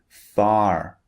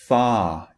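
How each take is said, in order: First: The final R sound is pronounced. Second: The final R sound is silent. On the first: "This is the American pronunciation" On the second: "is pronounced ah, far in British English"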